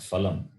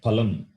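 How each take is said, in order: First: It begins with an f sound. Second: It begins with a breathy p sound. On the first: The speaker calls it wrong. "It is not phalam or phal" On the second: The speaker calls it right. "We say palam"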